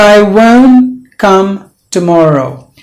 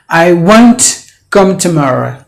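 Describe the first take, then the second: First: The t in won't is silent. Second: The t in won't is clearly pronounced. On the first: The speaker calls it right. "because T is gone. It's silent" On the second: The speaker calls it wrong. "you don't say"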